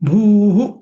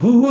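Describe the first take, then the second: First: The vowel is said long. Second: The vowel is said short. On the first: The speaker calls it right. "कारण इथं दीर्घ आहे भू" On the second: The speaker calls it wrong. "नाही"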